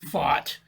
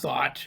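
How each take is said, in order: First: The word begins with an F sound. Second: The word begins with a TH sound.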